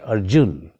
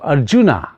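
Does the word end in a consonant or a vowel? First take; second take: consonant; vowel. First: The word ends on a consonant, no vowel. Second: The word ends with a final vowel sound. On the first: The speaker calls it right. "say Arjun" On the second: The speaker calls it wrong. "Instead of Arjuna"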